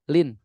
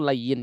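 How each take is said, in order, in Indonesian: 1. Diucapkan sebagai satu suku kata pendek. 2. Diucapkan sebagai dua suku kata dengan peluncur y. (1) "Mungkin kita terbiasa menyebutnya lin" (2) "Padahal makna atau tulisan aslinya itu layyin"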